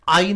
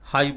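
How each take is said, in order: First: The word starts directly with a vowel sound. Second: The word starts with a clear h sound. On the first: The speaker calls it wrong. "आई नहीं बोलते हैं ना" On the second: The speaker calls it right. "हाई बोलते हैं"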